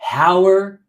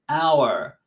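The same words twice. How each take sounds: First: The word begins with an audible h sound. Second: The word begins with a vowel, h silent. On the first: The speaker calls it wrong. "You don't say hour" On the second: The speaker calls it right. "No, it's hour"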